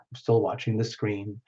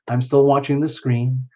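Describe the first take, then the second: First: "I'm still watching the screen" dropped low and soft; quieter aside. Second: Said in the usual way. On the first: Real, not acted. Host murmuring to herself while watching chat, softly. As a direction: say it again under your breath to yourself.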